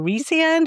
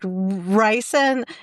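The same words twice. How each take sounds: First: The first syllable sounds like 'ree'. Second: The first syllable sounds like 'rye'. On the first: "is actually" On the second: "I like Rye"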